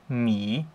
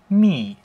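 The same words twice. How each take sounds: First: The pitch dips down, then rises. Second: The pitch falls sharply downward. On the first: "Beim dritten Ton ist es so ein kleines V" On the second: "beim vierten Ton ist es halt ein abfallender Strich"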